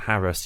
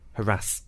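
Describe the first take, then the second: First: The stress is on the first syllable. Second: The stress is on the second syllable. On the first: "how I've been pronouncing it" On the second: "You've always heard it as harass?"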